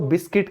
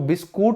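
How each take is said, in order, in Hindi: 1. दूसरा अक्षर 'kit' जैसा लगता है। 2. दूसरा अक्षर 'koot' जैसा लगता है। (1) "हम इसको बिस्किट कहते हैं" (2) "इसको बिस्कुट नहीं कहेंगे"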